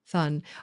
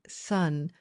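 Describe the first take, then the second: First: The word begins with a lisped th sound. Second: The word begins with a clear s sound. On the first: The speaker calls it wrong. "the microphone is trying to convert S to th" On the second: The speaker calls it right. "Sun, not thun"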